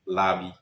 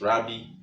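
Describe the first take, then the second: First: The word begins with an L sound. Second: The word begins with an R sound. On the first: "Mostly people say it's Labi" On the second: "Another example is Rabbi"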